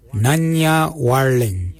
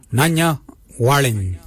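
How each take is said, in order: First: "Nanya warling" said slowly for learners; slow repeat. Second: Said in the usual way. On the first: Shown as a demonstration. Language teacher repeats phrase slowly for learners.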